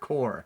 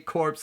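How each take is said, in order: First: It ends without any s sound. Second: It ends with a clear s sound. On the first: "not core" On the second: "I say corpse"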